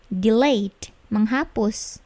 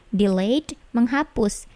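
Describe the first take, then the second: No difference in how they are said.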